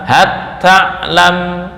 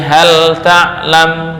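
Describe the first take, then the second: First: The l merges into a doubled t sound. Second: The l is pronounced clearly before the t. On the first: This is not the reading of Hafs. "nggak boleh dibaca" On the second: This is the reading of Hafs. "menurut Hafiz itu dibaca idhar"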